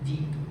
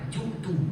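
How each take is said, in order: First: The first vowel is an i sound. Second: The first vowel is an u sound. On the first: The speaker calls it right. "baris bawah ... yang betulnya ji'tu" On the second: The speaker calls it wrong. "baris depan"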